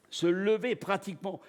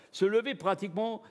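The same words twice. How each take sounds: The two takes are said the same way.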